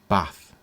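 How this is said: It is said in a Northern English accent. "someone with a non-standard Northern English accent might pronounce it as bath"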